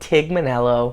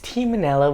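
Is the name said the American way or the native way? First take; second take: American; native. First: The name is said the common American way. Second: The name is said in its native form. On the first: The speaker calls it wrong. "but people pronounce it" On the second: The speaker calls it right.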